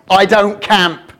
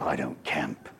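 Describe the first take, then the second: First: Sassy refusal. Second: Low, flat, final no; a wife putting her foot down, softer; a hint of a stern wife, hands on hips; hands-on-hip refusal. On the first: Pretend. Wife refusing, hands on hip. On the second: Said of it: "the hands going on the hip".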